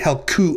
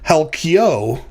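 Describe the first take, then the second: First: The vowel after the k sounds like 'oo'. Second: The vowel after the k sounds like 'ee'. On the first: The speaker calls it right. "is actually Helkuo" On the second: The speaker calls it wrong. "you might have thought that you should pronounce the the later form of this word"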